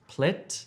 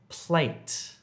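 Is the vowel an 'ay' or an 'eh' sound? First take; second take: eh; ay. First: The vowel is a short eh sound. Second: The vowel is a long ay sound. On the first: The speaker calls it wrong. "Don't say plet" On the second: The speaker calls it right. "if you're trying to say plate"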